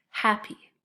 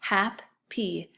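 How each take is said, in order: First: Said in the usual way. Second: Hap-py split into two beats, each syllable tapped. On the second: Shown as a demonstration. Teacher to second graders, splitting hap-py into syllables. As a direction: tap out hap-py slowly, one syllable at a time. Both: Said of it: "The next one is hap-py".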